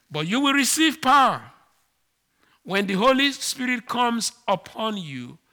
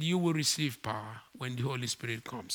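First: Louder and higher, ringing out the promise; Jesus's promise to his disciples before going up, proclaimed out loud; proclaiming loudly. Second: Softer and lower, gently repeating; Jesus's words again to his disciples, said quietly and gently; quiet restatement. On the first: Preacher quoting Jesus, loud and raised. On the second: Preacher repeating the promise quietly, softer and lower. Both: Acted. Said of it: "he said".

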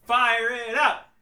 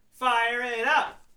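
First: Drawn-out hype call; excited. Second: Slow rising hype chant; excited. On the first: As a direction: call it out slowly, pumped up. Cheering the movie on. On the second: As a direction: stretch it, rising at the end. Repeat, rising. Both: Acted.

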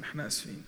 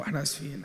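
First: Whispered, teasing sorry; whispered mock apology. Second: Said in the usual way. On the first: Real, not acted. (اعتذار همسًا بمزاح) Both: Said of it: "معلش، إحنا صحيناكم".

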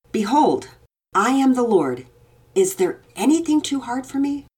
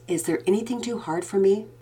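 First: Louder, solemn proclaiming voice; proclaiming God. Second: Said in the usual way. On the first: A narrator's reading. Father voicing God's words to his daughter with solemn weight. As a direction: declare it as God speaking.

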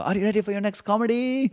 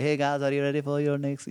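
First: Much higher, louder mock Indian accent after the joke bombs; a squeaky overblown Indian accent, desperate emcee; bombing Indian host. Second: Lightly higher mock Indian host accent; a hammed-up Indian accent, emcee greeting the crowd; bad Indian host. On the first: Host bombs and pleads with the crowd, high mock Indian accent. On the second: Comedian doing his worst-Indian-host bit, mock Indian accent. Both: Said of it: "the world's worst Indian host".

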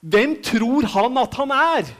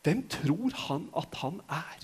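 First: A touch of raised, scornful voice, a bit higher and slower; mock the people's outrage, lightly; indignant crowd. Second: Hushed, softer, slow musing; quiet. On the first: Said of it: "jeg vil tro at folket tenkte". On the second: Retold or imitated. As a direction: drop the voice to a private wonder. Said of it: "quiet repeat of the crowd's question".

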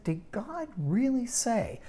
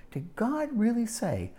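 First: Higher, slow, insinuating question; slow sly tempter's question; sly doubting serpent. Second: Higher mocking question; sly doubting serpent. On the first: Acted. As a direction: plant doubt with a sneer. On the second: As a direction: twist the words with feigned disbelief. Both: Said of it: "And you hear the tone of voice?".

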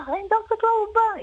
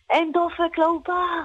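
First: Much higher shrieking repeat; retold shriek. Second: High mock scream of alarm; a cleaner's retold panicked shout. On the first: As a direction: push the alarm up into a shriek. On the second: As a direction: cry out the alarm from a distance. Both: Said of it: "היא התחילה לצרוח".

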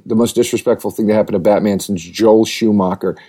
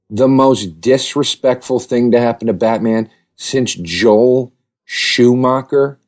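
First: Said in the usual way. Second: Dragging out "Joel Schumacher?" very slowly in disbelief; disbelieving, slow question; incredulous repeat. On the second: Acted. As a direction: repeat it like it's absurd, stretching "Schumacher".

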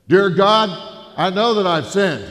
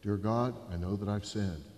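First: Booming, much louder and higher, every word carried across the room; loud repeat. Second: Said in the usual way. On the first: Retold or imitated. Jerry booms the prayer back across the burger joint, loud. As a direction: bellow the prayer back like a hard-of-hearing biker. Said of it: "his hearing was bad". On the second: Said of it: "and I said, "Okay, pray this".

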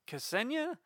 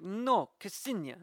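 First: "Ksenia" said as "Senia", rising question; wrong name. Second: Slow, firm "Ksenia" with a hard K, higher; impression of Ksenia. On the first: Retold or imitated. Country co-host mangling a friend's name, unsure rising. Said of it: "terrible impression of". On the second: Ksenia correcting co-host's pronunciation, slow and firm. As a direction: correct the name firmly and slowly. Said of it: "terrible impression of, of Ksenia".

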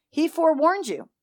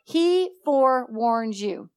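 First: Higher, forewarns stressed. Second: Slow, with He stressed. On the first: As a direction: hit forewarns with a fall. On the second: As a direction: lean on the word He. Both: Shown as a demonstration.

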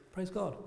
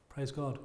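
First: "Praise God" said softly and dutifully, with a small lift; a polite, unexcited "Praise God"; lukewarm praise. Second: "Praise God" said softly and dutifully, with no excitement; lukewarm praise. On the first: Church members' tepid response to a salvation, softly dutiful. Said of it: "we're sending a message when we go". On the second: A congregation's half-hearted reply to a salvation, soft and dutiful. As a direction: mumble "Praise God" like a polite Brit. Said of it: "the normal response is". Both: Retold or imitated.

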